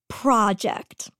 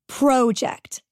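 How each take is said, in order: First: The word is said with a non-Canadian pronunciation. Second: The word is said with a Canadian pronunciation. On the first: The speaker calls it wrong. "not project" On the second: The speaker calls it right. "I'm Canadian. We say project"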